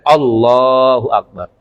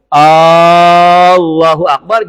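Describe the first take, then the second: First: The opening vowel of Allah is kept short. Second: The opening vowel of Allah is drawn out long. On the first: It declares that God is great. The speaker calls it right. "yang benar pendek" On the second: It asks whether God is great. The speaker calls it wrong. "kalau seandainya hamzahnya dipanjangin"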